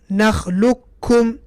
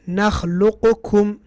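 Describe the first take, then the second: First: The qaf merges into a doubled kaf sound. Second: The qaf is released separately before the kaf. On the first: The speaker calls it right. "We pronounce both letters as if they are one letter by using a shaddah" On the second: The speaker calls it wrong. "How would it be without idgham? ... Qaf with qalqalah"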